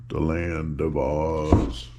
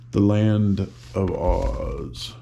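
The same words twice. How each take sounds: First: Low, slow dramatic title; low, drawn out, mysterious title; lower, slower title. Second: Slow and drawn out; slow, grand title read; slow announcement. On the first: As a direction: drop the voice for the title. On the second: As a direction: savor each word of the title. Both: Shown as a demonstration.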